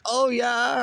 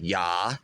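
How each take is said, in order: First: High squeaky oh yeah, like a sound alert; mock sound-alert oh yeah, louder. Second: A hint of a German accent on yeah; lightly German-accented yeah; mock German yeah. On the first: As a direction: pitch oh yeah way up like a meme clip. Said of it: "I always hear it as". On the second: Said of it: "almost in, like, a German accent".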